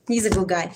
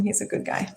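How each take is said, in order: First: Said in the usual way. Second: "He's a good guy" whispered softly. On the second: Real, not acted. Mother whispers "He's a good guy" about her son.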